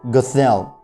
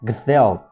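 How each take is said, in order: Both takes have the same delivery.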